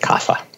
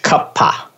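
First: It is said with the common anglicized pronunciation. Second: It is said with careful Sanskrit pronunciation. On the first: "most people will just say kapha" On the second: "If you really want to be correct about your Sanskrit pronunciation"

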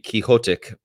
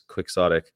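First: It is said like the name Quixote. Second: It is said with a kw and x sound. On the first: "it should be Quixotic" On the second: "but of course it's quixotic"

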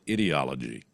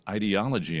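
First: The word begins like the word 'idiot'. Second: The word begins like the word 'idea'. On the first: The people described are being called idiots. "as in idiot, but they don't say the T in there" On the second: The word is used in its ordinary sense. "It's not called ideology anymore"

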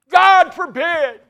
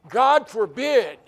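First: It is said loudly and forcefully. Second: It is said calmly and evenly.

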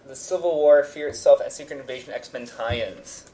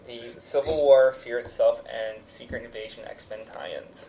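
First: It is said quickly. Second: It is said slowly.

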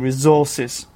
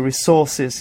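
First: The middle consonant is a z sound. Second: The middle consonant is an s sound. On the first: The speaker calls it right. "it should be resources" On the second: The speaker calls it wrong. "The same mistake I make when I say resources"

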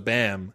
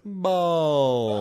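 First: The word is said with no L sound. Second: The word is said with an audible L sound. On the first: The speaker calls it right. "you want me to take out the L? It's a bam" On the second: The speaker calls it wrong. "when you pronounce the L, that makes it weird"

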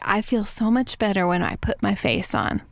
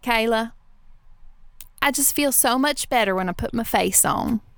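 First: It is said in the speaker's own neutral accent. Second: It is said in the grandmother's Texas accent.

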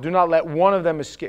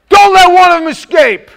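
First: It is read in a calm, even voice. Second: It is shouted with loud, forceful energy. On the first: The speaker calls it wrong. "he probably didn't say it like that" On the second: The speaker calls it right. "he was probably in the moment"

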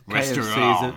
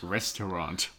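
First: The final T sound is dropped. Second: The final T sound is pronounced.

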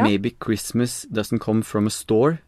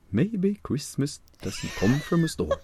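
First: It is said in the speaker's normal voice. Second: It is said in an old-fashioned storyteller voice.

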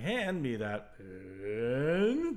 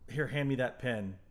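First: It is said imitating the movie character's delivery. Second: It is said plainly, in a normal voice.

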